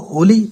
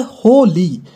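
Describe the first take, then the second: First: Holi as one quick word; joined without pause. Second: हो and ली said apart with a gap; split by juncture. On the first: Teacher naming the festival, Holi with no gap. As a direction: run हो straight into ली in Holi. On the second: Teacher showing two words, हो, pause, ली. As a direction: break Holi after हो. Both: Shown as a demonstration. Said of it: "दोनों को जोड़ दो".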